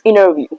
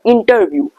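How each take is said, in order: First: The T is dropped, leaving a double N sound. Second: The T after the N is clearly pronounced. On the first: The speaker calls it right. "Try to pronounce interview" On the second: The speaker calls it wrong. "don't pronounce the interview"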